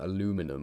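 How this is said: It is said with an American English pronunciation.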